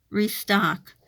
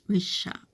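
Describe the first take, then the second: First: Restock said clearly with st; corrected word. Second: Reshock said with sh instead of st; wrong word slip. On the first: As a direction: land restock firmly as the fix. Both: Real, not acted. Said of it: "not reshop".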